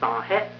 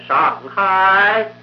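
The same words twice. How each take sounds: First: It is said with a narrow mouth, Shanghai style. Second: It is said with a wide-open mouth, stage style. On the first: The speaker calls it wrong. "江南人一念就成了上海，这口法呢就小了" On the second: The speaker calls it right. "上韵呢念上海"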